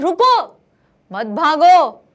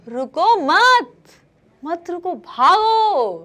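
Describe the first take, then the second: First: The pause comes right after रुको. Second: The pause comes right after मत.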